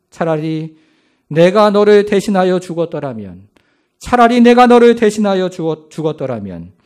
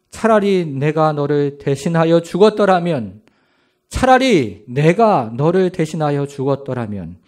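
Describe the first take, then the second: First: Grieving father wishing to die instead; anguished cry. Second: Wailing. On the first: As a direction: plead to die in his place, cracking at the end. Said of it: "이렇게 말씀하십니다". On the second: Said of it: "이렇게 울부짖기를 시작합니다". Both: Acted.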